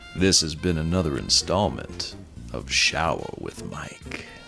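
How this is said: It is said in a sexy voice.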